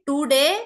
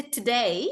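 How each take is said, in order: First: Today as "TOO-dey" with curled-back T and D; louder, hard Indian-style today. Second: Today with a light English T, "tuh-DAY"; English T sound. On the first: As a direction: say today with hard retroflex consonants. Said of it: "we are using ter se tomater and not T". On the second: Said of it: "When we have to say today". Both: Shown as a demonstration.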